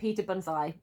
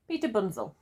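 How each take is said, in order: First: The surname ends with an 'eye' sound. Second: The surname ends with an 'el' sound. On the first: The speaker calls it wrong. "I've been calling him Peter Bunzai until this point" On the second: The speaker calls it right. "I'm now pronouncing it correctly"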